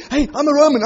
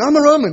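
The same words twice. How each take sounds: First: Mock yell. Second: The same plea pushed higher and louder; louder mock yell. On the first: Imagined plea while dragged. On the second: Preacher imagining himself shouting his citizenship again, louder. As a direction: shout it again, more desperate.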